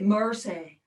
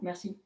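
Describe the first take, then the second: First: It is said with an American accent. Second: It is said with a French accent. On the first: "you say mercy" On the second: "we say merci in French"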